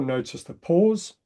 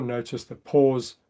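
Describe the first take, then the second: First: Slowed, drawn-out cue; calm slowed reminder. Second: Slowed, drawn-out cue, falling; calm slowed reminder. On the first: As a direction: lean into the word pause. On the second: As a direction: settle the word pause. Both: Shown as a demonstration.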